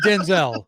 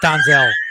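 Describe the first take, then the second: First: The first vowel is a short 'eh' sound. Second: The first vowel is an open 'ah' sound. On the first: "forty years of calling him Denzel" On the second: "It's not Donzel"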